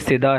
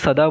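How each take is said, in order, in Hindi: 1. पहला स्वर छोटी 'i' की आवाज़ है। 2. पहला स्वर छोटी 'a' की आवाज़ है। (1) "वैसे ये सिदा है" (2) "हम उर्दू में इसे सदा बोल देते हैं"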